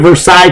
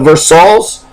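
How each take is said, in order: First: It is said the standard, French-derived way. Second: It is said the local Kentucky way. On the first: It names the treaty. "we signed a Versailles Treaty in World War One" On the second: It names the Kentucky town. "That's what we call it"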